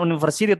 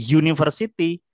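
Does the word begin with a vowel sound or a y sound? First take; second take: vowel; y sound. First: It begins with a plain vowel sound. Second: It begins with a consonant y sound. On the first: The speaker calls it wrong. "bukan university" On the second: The speaker calls it right. "tapi university. Jadi walaupun tulisannya U yang adalah huruf vokal tapi membacanya Y"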